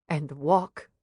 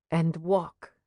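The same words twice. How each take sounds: The two takes are said the same way.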